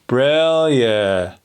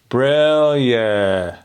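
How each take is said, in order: First: The vowels are open and prominent. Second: The vowels are open and prominent.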